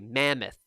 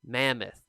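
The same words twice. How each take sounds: No difference in how they are said.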